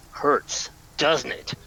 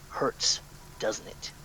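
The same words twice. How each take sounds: First: Said in the usual way. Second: Hushed, voiceless taunt; stage whisper. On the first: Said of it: "And then a harder chop". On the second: Acted. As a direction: whisper "Hurts, doesn't it?" as a menacing taunt. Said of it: "in a stage whisper say".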